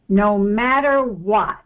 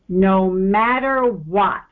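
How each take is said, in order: First: It is spoken at a normal pace. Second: It is spoken at a slow pace.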